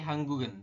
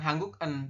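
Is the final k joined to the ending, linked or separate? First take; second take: linked; separate. First: The final k links into the ending as g. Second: The final k stays separate from the ending. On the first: The speaker calls it right. "tapi hanggugen seperti itu. Jadi gioknya ini naik ke sini" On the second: The speaker calls it wrong. "bukan hangguk en"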